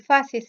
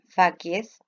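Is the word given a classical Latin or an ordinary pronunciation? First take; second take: ordinary; classical. First: The word gets an ordinary, non-classical pronunciation. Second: The word gets a classical Latin pronunciation.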